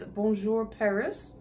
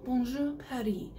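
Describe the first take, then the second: First: "Bonjour" French, "Paris" as PAIR-iss; mixed "Bonjour Paris", English ending on "Paris". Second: French-accented "Bonjour Paris", silent s in Paris; playful French accent on both words. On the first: Real, not acted. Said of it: "French accent on bonjour and then just Paris". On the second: Shown as a demonstration. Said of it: "with the French accent".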